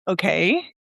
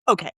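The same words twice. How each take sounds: First: It sounds questioning. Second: It sounds angry.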